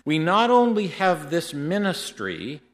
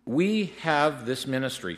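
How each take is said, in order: First: Only lifted high and louder, slowed; stress on only. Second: Said in the usual way. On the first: Shown as a demonstration. Preacher to congregation, pressing the word only. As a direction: lean hard on only to build the point.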